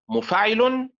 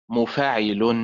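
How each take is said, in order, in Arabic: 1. يقع النبر على الحركة الثانية فقط. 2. يقع النبر على الحركة الثانية والرابعة. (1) "النبر فيها على الحركة الثانية حركة الفاء" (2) "النبر فيها على الحركة الثانية والرابعة"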